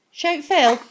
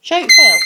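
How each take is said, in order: First: Said in the usual way. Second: Louder urging. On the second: Real, not acted. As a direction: call it out louder to the bird. Urging the parrot to call.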